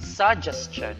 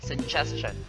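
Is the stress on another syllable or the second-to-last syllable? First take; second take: another syllable; second-to-last. First: The stress falls away from the second-to-last syllable. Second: The stress falls on the second-to-last syllable. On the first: The speaker calls it wrong. "We do not say" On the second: The speaker calls it right. "But instead"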